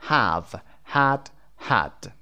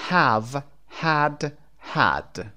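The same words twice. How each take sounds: The two takes are said the same way.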